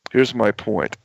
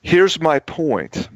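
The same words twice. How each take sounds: First: Said in the usual way. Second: Here's my point drawn out slow and higher, each word weighted; emphatic slow point. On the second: Shown as a demonstration. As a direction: land the point slowly, pressing each word.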